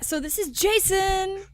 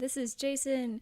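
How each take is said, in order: First: It is said with more energy. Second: It is said with low energy.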